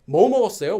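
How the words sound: The stress is on the first word. It asks what was eaten. "you have to emphasize whenever you use a question word"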